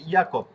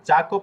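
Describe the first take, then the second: First: The word begins with a Y sound. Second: The word begins with a J sound. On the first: The speaker calls it right. "হয়ে যাবে ইয়াকপ" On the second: The speaker calls it wrong. "জাকপ না হয়ে"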